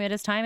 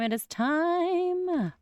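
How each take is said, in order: First: Said in the usual way. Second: High, very slow, drawn out announcement; "It is time" sung out high and slow with a long falling "time"; dramatic drawn out. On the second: Acted. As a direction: stretch "It is time" out like a grand reveal. Third dramatic repeat of phrase.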